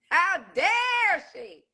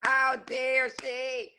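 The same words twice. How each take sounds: First: Slow, higher drawn-out outrage; rising indignation. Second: Slow indignation. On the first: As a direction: push the second one harder. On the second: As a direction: let disbelief sink in. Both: Real, not acted. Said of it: "repeated with different force".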